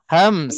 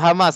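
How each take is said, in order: First: The m runs straight into the s. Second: An extra vowel is inserted before the s. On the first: The speaker calls it right. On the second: The speaker calls it wrong. "jangan sebut hamas, hamas salah"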